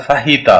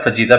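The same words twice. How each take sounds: First: "फाहीता" with an h in place of j; H sound. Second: "फजीता" with a hard English j; wrong pronunciation. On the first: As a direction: breathe an h in the middle of "फाहीता". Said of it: "एच की sound आनी चाहिए". ("फाहीता" में ज की जगह ह) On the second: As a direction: sound the j in "फजीता" as in jeep. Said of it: "it's not a". ("फजीता" का गलत उच्चारण, ज की आवाज़) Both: Shown as a demonstration.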